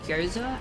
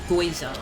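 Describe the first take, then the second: First: The first syllable sounds like 'gyo'. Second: The first syllable sounds like 'goi'. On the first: The speaker calls it right. "the Japanese food gyoza" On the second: The speaker calls it wrong. "as goiza"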